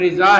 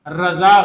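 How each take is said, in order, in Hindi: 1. पहला स्वर 'i' की आवाज़ है। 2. पहला स्वर 'a' की आवाज़ है। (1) "आला हज़रत का नाम जो है वो रिज़ा है" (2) "रज़ा गलत है"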